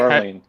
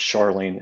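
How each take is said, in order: First: The name begins with a J sound. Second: The name begins with an SH sound. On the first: "Silent K" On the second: "They pronounce it with it like S H, sh"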